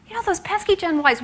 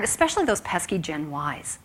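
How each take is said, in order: First: "pesky" pitched high with a mock groan; mock exasperation. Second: Said in the usual way. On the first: Line managers grumbling about young staff, mocking high whine. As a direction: imitate a manager's put-upon complaint. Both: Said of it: "come up against when I start talking about employee retention".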